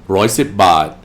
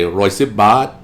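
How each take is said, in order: First: The last word is said with a statement tone. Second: The last word rises like a question. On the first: It states the price. The speaker calls it right. "what he said is one hundred ten baht" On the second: It checks back what was said. The speaker calls it wrong. "I'm using an interrogative question tone"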